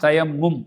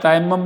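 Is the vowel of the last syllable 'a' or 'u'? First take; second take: u; a. First: The last syllable has a 'u' vowel. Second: The last syllable has an 'a' vowel. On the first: The speaker calls it right. "சரியான உச்சரிப்பு" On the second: The speaker calls it wrong. "பொதுவாக நாங்கள் தயம்மம் தான் சொல்லுவோம்"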